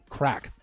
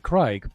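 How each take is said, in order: First: It is said in an Irish accent, vowel like cat. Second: It is said in an American accent, vowel like eye. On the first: "the Irish they say more like uh, crack" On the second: "us Americans say crike"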